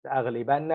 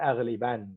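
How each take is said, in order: First: "أغلبن" ending in a doubled n plus short a, aghlibanna; "أغلبن" with the final -na sounded; fatha ending. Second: "أغلبن" stopped on the final n, aghliban; "أغلبن" closed on n with sukun; sukun ending. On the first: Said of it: "fatha, I mean with". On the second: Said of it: "or sukun". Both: Shown as a demonstration.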